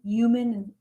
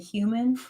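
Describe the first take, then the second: First: The word starts without an h sound. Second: The word starts with a clear h sound. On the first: This is how the other person says it. "you say human" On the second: This is how the speaker says it. "I pronounce the H"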